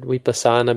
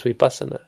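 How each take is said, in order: First: "Vipassana" stressed on long SA; English-style stress. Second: "vipassana" stressed on PAS; corrected stress. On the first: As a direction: lean on the second-to-last syllable, vipa-SAA-na, in "Vipassana". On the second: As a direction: move the weight to PAS in "vipassana", short sa. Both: Shown as a demonstration. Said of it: "It changes the word".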